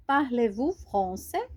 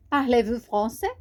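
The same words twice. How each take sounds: First: Slower, carefully spaced question; slow model phrase. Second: Said in the usual way. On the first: Shown as a demonstration. Teacher to beginners, modelling the question slowly.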